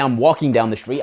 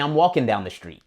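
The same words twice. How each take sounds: First: The ending of 'walking' keeps its full ing sound. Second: The ending of 'walking' drops the final g sound. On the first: "I don't say" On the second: "I say"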